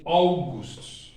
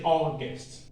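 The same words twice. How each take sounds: First: August slow, with a full "oo" in the second syllable; German August. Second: August with the English "aw" vowel and a weak second syllable. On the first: Teacher comparing English and German for students, German August. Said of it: "In German, we say August". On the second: Teacher comparing English and German for students, English August. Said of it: "In English, we say August". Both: Shown as a demonstration.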